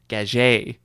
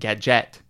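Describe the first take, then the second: First: The name is pronounced with a French pronunciation. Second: The name is pronounced with an English pronunciation. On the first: This is the family's original pronunciation. "the original French way" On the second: This is how people later came to say it. "they started to pronounce it"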